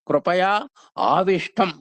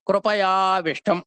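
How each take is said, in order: First: The two words are said separately, vowels unmerged. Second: The two words are merged into one word. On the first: "కృపయా ఆవిష్టం అని చెప్పుకోవాలి" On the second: "కలిపితే కృపయావిష్టం అయింది"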